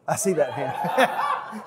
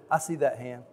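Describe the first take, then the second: First: Put-on slow, drawn-out child preacher voice with a laugh; mock child preacher altar call. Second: Said in the usual way. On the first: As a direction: play the boy preacher spotting a raised hand. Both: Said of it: "I even said".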